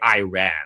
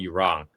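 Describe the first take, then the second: First: The first syllable sounds like 'eye'. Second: The first syllable sounds like 'ee'. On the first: It jokes that the warship ran away. "We we say Iran" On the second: It names the country plainly. "in America we don't call Iran Iran"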